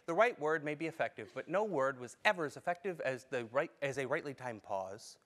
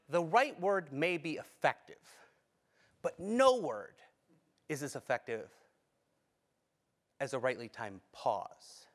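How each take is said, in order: First: It is read plainly, without added expression. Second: It is read expressively, adding meaning through delivery.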